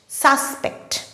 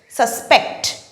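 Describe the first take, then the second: First: The stress is on the first syllable. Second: The stress is on the second syllable. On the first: It is used as a noun. "the stress falls on the first syllable sus" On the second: It is used as a verb. "the stress falls on the second syllable pect"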